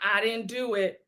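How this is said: It sounds defeated and meek.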